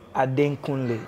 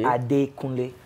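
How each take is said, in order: First: An n sound follows the first part, Ade. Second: No n sound follows the first part, Ade. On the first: The speaker calls it wrong. "It's not Ade Kunle" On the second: The speaker calls it right. "There's no N after the Ade"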